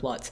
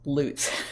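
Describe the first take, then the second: First: The vowel does not sound like 'loot'. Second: The vowel sounds like the one in 'loot'. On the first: The speaker calls it wrong. "Everybody keeps calling him Sheriff Lutz" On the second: The speaker calls it right. "his pronunciation is Sheriff Lutz"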